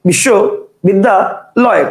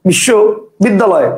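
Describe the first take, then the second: First: The word is broken into three separate chunks. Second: The word is broken into two separate chunks. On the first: "কেউ উচ্চারণ করবে বিশ্ব বিদ্যা লয়, কটা হলো? তিনটা।" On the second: "কেউ উচ্চারণ করবে বিশ্ব বিদ্যালয়, কটা হলো? দুইটা।"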